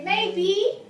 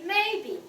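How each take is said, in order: First: "maybe" with "be" pitched up high; wrong high ending. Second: "maybe" with high "may" and low "be"; low ending. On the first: Teacher shows students what not to say, rising "maybe". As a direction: lift the end of "maybe" wrongly. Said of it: "you can't say maybe". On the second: Teacher shows correct way to say it, falling "maybe". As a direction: drop "be" at the end of "maybe". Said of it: "And the B, you must be very low". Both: Shown as a demonstration.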